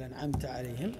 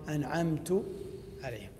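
First: The verb ends with a short a vowel. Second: The verb ends with a short u vowel. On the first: The blessing is attributed to God. The speaker calls it right. "بدل انعمت عليهم" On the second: The speaker attributes the blessing to himself. The speaker calls it wrong. "اضافها لنفسه"

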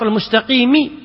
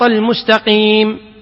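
First: The final consonant carries a short vowel. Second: The final consonant is stopped with no vowel. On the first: This is the word's original full form. "أصلها" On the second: This is how the word is said when pausing. "لكن تقف على السكون"

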